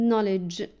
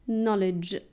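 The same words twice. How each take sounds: The two takes are said the same way.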